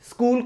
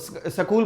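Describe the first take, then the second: First: It begins with the tight cluster sk. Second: It begins with a full sa before k.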